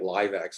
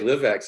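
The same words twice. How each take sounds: First: The first part rhymes with 'five'. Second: The first part rhymes with 'give'. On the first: The speaker calls it wrong. "that's wrong. It sounds like an entertainment thing" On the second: The speaker calls it right. "I heard Stephen Gates say LiveX"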